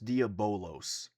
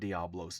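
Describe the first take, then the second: First: The name is said with four syllables. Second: The name is said with three syllables. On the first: The speaker calls it right. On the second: The speaker calls it wrong. "I was wrong, not Diablos"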